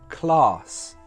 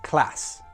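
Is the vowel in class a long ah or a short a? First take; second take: long ah; short a. First: The vowel is a long open ah. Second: The vowel is a short flat a. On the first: "in the south of England, we say" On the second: "in the north of England, they would say"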